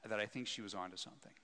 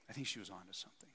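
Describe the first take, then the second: First: Said in the usual way. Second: Softer and faster musing repeat; quiet, quick echo of the thought. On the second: Real, not acted. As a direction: say it again to yourself.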